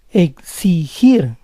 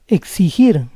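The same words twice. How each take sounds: First: Exigir split as ek-si-GIR; syllable by syllable. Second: Said in the usual way. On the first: Shown as a demonstration. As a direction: say Exigir in parts, stressing GIR. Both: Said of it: "try to understand the rules".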